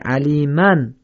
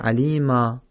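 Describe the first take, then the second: First: The word ends with a nasal 'an' sound. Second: The word ends with a long open 'a' sound. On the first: The word is joined to what follows. "در حالت وصل خوانده نمیشه" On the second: The reciter stops on this word. "در وقف چی میشه؟ میشه علیما"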